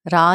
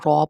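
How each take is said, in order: First: The letter is said with a thin, light sound. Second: The letter is said with a thick, heavy sound. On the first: The speaker calls it wrong. "रा नहीं पढ़ना है इसको" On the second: The speaker calls it right. "रॉ को भी मोटा पढ़ा जाएगा, बोल्ड लेटर है"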